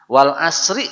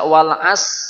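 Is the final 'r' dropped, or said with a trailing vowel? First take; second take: trailing vowel; dropped. First: The final r is said with a short 'i' vowel. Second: The final r sound is left out. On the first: The stop is made the wrong way. "memotongnya bunyinya salah" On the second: A letter and its meaning are lost. "salah besar"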